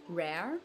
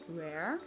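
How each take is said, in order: First: The R is an English-style R. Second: The same.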